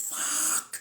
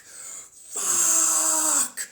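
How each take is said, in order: First: Breathy voiceless swear; whispered curse. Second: Long, high, full-throated scream; drawn-out scream. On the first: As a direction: mouth the swear on just air. Whispered then screamed curse. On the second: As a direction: let the curse rip in a long wail. Screamed after the whispered one. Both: Acted.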